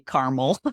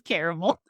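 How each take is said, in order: First: It uses the Midwestern and Northern US pronunciation. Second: It uses the Southern US pronunciation. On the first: "all of the people from the Midwest and the North section of the United States say caramel" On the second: "Everyone in the South says caramel"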